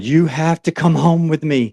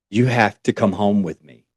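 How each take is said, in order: First: Pitched higher, pressing and urgent; passionate plea. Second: Said in the usual way. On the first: Retold or imitated. On the train, she pleads with the stranger passionately. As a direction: push the plea up, insistent. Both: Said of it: "she starts getting more passionate about it".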